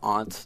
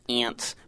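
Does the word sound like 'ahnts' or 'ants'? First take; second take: ahnts; ants. First: The vowel is a broad 'ah' sound. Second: The vowel sounds like the insect 'ants'. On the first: This is the Boston way of saying it. "my mom is from Boston" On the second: This is the Pittsburgh way of saying it. "Most of us in Pittsburgh have aunts"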